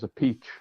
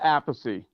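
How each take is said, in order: First: The name ends in a 'peach' sound. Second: The name ends in a 'thee' sound. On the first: This is the Italian pronunciation. "the Italian way" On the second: This is the family's traditional pronunciation. "it's always pronounced Apathy. That's the way my father pronounced it"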